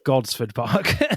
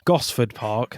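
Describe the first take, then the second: First: The first word has a d sound. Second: The first word has no d sound. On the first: The speaker calls it wrong. "not Godsford Park. I said that wrong once again" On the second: The speaker calls it right.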